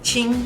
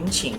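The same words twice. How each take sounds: First: It is said with the first tone, high and level. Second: It is said with the third tone, low dipping.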